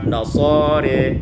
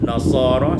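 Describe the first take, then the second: First: The final vowel leans toward an e sound. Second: The final vowel is a clear open a.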